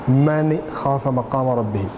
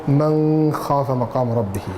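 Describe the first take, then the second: Both takes have the same delivery.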